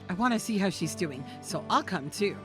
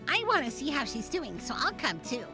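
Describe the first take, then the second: First: It is said in a normal, unsqueaky voice. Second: It is said in a high, squeaky voice.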